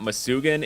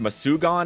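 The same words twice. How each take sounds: First: The name is said without an 'aw' vowel. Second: The name is said with an 'aw' vowel. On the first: The speaker calls it wrong. "not Masugan" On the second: The speaker calls it right. "it keeps that aw sound"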